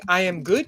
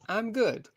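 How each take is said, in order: First: The words I am are said in full. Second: The words I am are contracted to I'm. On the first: This is a more formal way of talking. "Instead of saying "I am good,"" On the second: This is a more informal way of talking. "like this. "I'm good," which is a more informal way of talking"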